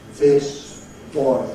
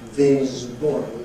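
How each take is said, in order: First: The s in this stays voiceless. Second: The s in this becomes voiced. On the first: The speaker calls it right. "which they should in English" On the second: The speaker calls it wrong. "they modify the voiceless sound to anticipate the voicing of B"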